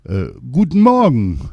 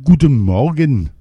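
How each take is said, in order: First: Louder, dazed repeated greeting; repeating king. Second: Higher, louder royal morning greeting; king's greeting. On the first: Poisoned king repeating his greeting, dazed. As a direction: say it again as if it were new. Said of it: "erwiderte der König nun abermals". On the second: King answering his maid in the morning, high and loud. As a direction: greet back like a dazed king. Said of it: "erwiderte der König". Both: A narrator's reading.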